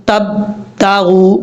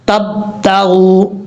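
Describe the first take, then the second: The two takes are said the same way.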